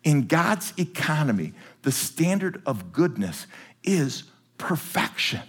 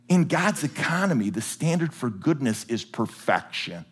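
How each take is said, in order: First: In God's economy said slowly, each word weighted so people can write it; slow for note-taking. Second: Said in the usual way. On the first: Shown as a demonstration. Preacher repeats the phrase slowly for note-takers. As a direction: dictate it word by word. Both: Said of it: "Please write that phrase down".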